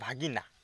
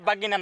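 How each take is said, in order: First: The first consonant is a breathy bh. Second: The first consonant is a plain b. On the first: The speaker calls it right. "না ভাগিনা" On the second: The speaker calls it wrong. "বাগিনা না"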